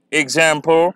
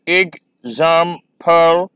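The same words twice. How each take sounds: First: Said in the usual way. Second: "एग्जांपल" slow, split as ek-zam-pal; syllable by syllable. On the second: Shown as a demonstration. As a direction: count out "एग्जांपल" in three beats. ("एग्जांपल" धीरे-धीरे, तीन syllable में) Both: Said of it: "आप pronounce करेंगे".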